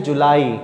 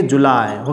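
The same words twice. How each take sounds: First: जुलाई said the Hindi way, "julai"; teacher shows the usual Indian जुलाई; wrong way shown. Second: जुलाई as English "July", the pitch dropping low. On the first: Teacher to class: the wrong Hindi-style जुलाई. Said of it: "कुछ लोग इसको बोलते हैं जुलाई". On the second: Teacher to class: English जुलाई, said lower. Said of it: "English में जब बोलेंगे तो कैसे बोलेंगे". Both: Shown as a demonstration.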